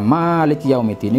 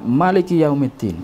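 First: The first vowel of Maliki is long. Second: The first vowel of Maliki is short. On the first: The one who owns the Day of Judgment. "ini bacaan yang kita biasa yang kita baca ya" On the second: The one who rules the Day of Judgment.

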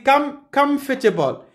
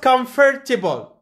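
First: The stress falls on the first syllable. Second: The stress falls on a later syllable. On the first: The speaker calls it right. "We say comfortable. This is first syllable" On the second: The speaker calls it wrong. "it's not comfortable"

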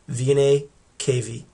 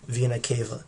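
First: Each word ends in an 'ee' sound. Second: Each word ends in an 'ah' sound. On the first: The speaker calls it right. "you would say superior and inferior vena cava" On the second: The speaker calls it wrong. "I pronounced it incorrectly right when I first said it"

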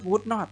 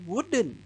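First: Two separate full words, the negative sounding emphasized. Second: The words blend into one short contracted word. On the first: The speaker calls it wrong. "ประโยคมันจะถูกเน้นขึ้นมาเกินไปนะถ้าเราพูด" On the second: The speaker calls it right. "มันเลยควบกล้ำกันนะครับเป็น"

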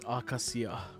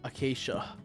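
First: It is said with a Japanese pronunciation. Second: It is said with an English pronunciation. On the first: "Japanese is acacia" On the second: "English is acacia"

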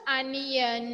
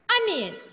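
First: The word is drawn out slowly. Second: The word is said quickly and crisply. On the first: The speaker calls it wrong. "Not onion. No, don't drag" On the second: The speaker calls it right. "Say smartly"

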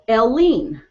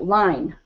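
First: The name is said as two syllables, 'el-lean'. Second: The name is said as one syllable, like 'line'. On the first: The speaker calls it right. "say name, first letter like a vowel" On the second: The speaker calls it wrong. "am I saying this right?"

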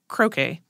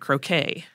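First: It is pronounced the way it is in England. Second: It is pronounced the usual non-English way.

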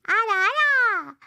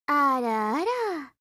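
First: It is said in a cute voice. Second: It is said in a plain voice.

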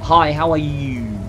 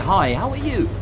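First: The voice goes down at the end. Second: The voice goes up at the end. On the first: It sounds odd for a question. The speaker calls it wrong. "Not, ... Just be weird" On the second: It sounds like a normal question. The speaker calls it right. "grammar is the reason we end questions one and up with inflection, right? We say"

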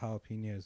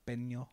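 First: The word has a plain English pronunciation. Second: The word has an exaggerated Spanish pronunciation. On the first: "I love getting like nachos with jalapenos" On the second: "they over-pronunciate like their jalapeno"

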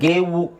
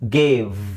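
First: The word ends with an extra 'u' vowel. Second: The word ends cleanly on a 'v' sound. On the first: The speaker calls it wrong. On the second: The speaker calls it right.

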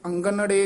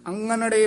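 First: The middle consonant is a hard g sound. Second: The middle consonant is a nasal ng sound. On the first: The speaker calls it wrong. "ਗੱਗਾ ਨਹੀਂ ਲਾਉਣਾ ਹੈ" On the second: The speaker calls it right. "ਙੰਙਾ ਬੋਲਣਾ ਹੈ"

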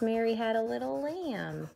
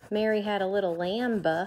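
First: The word 'lamb' ends on the M with no B. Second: The word 'lamb' ends with a sounded B. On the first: The speaker calls it right. "It's Mary had a little lamb. So it's definitely got a silent B" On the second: The speaker calls it wrong. "It's not Mary had a little lamb"

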